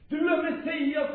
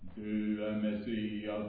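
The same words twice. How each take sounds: First: It is said with inspired, heartfelt feeling. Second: It is said in a flat, uninspired way. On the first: The words come from a sudden inner revelation. The speaker calls it right. "han får en inspiration i sitt hjärta" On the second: The words are only a learned statement. The speaker calls it wrong. "han säger inte så här"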